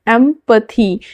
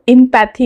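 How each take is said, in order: First: The word begins with an 'em' sound. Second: The word begins with an 'im' sound. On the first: The speaker calls it right. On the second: The speaker calls it wrong.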